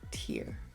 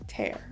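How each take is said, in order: First: It is pronounced as the word meaning eye drop. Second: It is pronounced as the word meaning rip. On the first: A drop of liquid from the eye. "tear is just a drop of liquid from the eye" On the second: To pull something apart. "be careful not to tear the paper"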